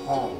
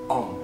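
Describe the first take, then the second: First: The word begins with an h sound. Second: The word begins directly with the vowel o. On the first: The speaker calls it wrong. "bukan hom. Ada h di situ" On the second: The speaker calls it right. "kalau pengucapannya vokal o"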